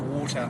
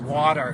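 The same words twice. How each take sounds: First: It is said in a British accent. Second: It is said in an American accent. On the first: The speaker calls it right. "You have to say water" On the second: The speaker calls it wrong. "you can't say water in England"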